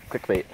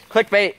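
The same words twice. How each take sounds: First: Said in the usual way. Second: "Clickbait" called out higher and louder, like a YouTube hook. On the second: Shown as a demonstration. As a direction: announce "Clickbait" with a punchy higher call.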